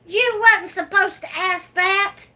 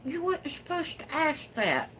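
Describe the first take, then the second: First: Higher and louder mock scold; loud playful scolding. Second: High, coy tease; coy teasing. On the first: Scolding a nosy viewer in fun, high and loud. Viewer asks about new babies. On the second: Teasing a viewer about new babies, coy and high. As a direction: playfully dodge the question. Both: Real, not acted.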